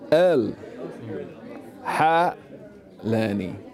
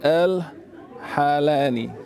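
First: It is split into separate words. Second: It is run together as one word. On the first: The speaker calls it right. "Three different words" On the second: The speaker calls it wrong. "It's like a word"

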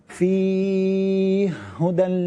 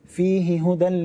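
First: The two h sounds are merged into one. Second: The two h sounds are pronounced separately.

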